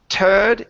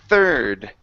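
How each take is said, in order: First: The word starts with a plain t sound. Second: The word starts with a th sound. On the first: The speaker calls it wrong. "instead of turd" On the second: The speaker calls it right. "let's practice that T H"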